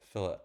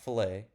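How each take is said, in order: First: The word ends with an 'it' sound. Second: The word ends with an 'ay' sound. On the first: The speaker calls it right. "There's a difference" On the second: The speaker calls it wrong. "not fillet, because there are two L's"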